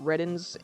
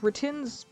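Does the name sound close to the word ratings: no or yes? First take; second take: yes; no. First: The name sounds close to the word ratings. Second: The name does not sound like ratings. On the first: It matches the intended pun on ratings. "is closer to, like, what I think is the intended pun with his name of ratings" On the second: It is the more natural-sounding form. "just sounds more natural"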